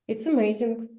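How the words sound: It is said flatly with a falling tune. "as a Russian native speaker, I would say just, ... falling down"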